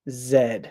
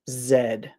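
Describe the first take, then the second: First: The letter is named the British way. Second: The letter is named the British way.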